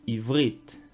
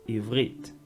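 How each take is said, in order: No difference in how they are said.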